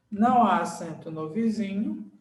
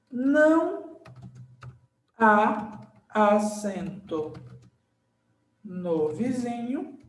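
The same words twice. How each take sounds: First: Said in the usual way. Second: Slow dictation. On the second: Shown as a demonstration. Teacher writing the rule's second half, slow dictation. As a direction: dictate slowly, holding each word.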